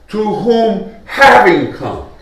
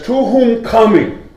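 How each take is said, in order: First: "having" drawn out and punched, then "come" falling; slow quote that leans hard on "having"; stress on having. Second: "coming" drawn out as ongoing, against "having come"; slow, higher quote leaning on "coming"; stress on coming. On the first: Preacher shows what Peter doesn't say, stressing "having". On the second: Preacher shows what Peter says, stressing "coming". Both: Shown as a demonstration. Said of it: "He doesn't say".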